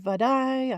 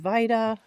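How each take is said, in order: First: The name ends with an 'ay' sound. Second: The name ends with an 'uh' sound. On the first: This is the other person's pronunciation. "You say Vidaye" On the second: This is the speaker's own pronunciation. "I say Vida"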